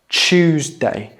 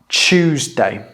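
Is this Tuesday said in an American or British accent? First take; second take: British; British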